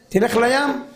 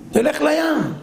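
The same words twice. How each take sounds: First: Said in the usual way. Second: תלך לים pushed higher with a falling end on לים; תלך לים said higher and firmer, falling on לים; insistent doctor's advice. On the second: Shown as a demonstration. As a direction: press תלך לים like an order, dropping on לים.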